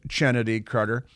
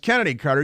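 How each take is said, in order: First: The name begins with a ch sound. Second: The name begins with a k sound. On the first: This is how the name is spelled. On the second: This is how the name is pronounced. "but it's pronounced"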